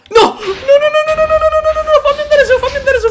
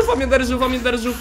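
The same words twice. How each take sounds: First: High, loud laughing panic; panicked screaming. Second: Said in the usual way. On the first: Real, not acted. Panicking in game.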